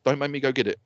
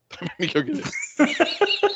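First: Said in the usual way. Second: Drawn-out, higher playful menace; teasing slow warning; slow mock threat. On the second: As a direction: stretch it out like a joking threat. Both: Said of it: "That is the most unusual threat".

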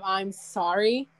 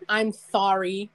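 First: Said in the usual way. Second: "sorry" said with a th for its s; slow, lisping "sorry" starting on th; lisped sorry. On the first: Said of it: "instead of "I'm sorry". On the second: Retold or imitated. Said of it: "put, like, T H instead of an S".

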